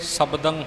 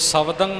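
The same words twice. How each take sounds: First: The middle consonant is a b sound. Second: The middle consonant is a v sound. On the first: The speaker calls it right. "शब्दं होवे भाव के बुल जुड़ के बब्बे का उच्चारण होना चाहिए" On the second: The speaker calls it wrong. "सो शब्दं ना होवे"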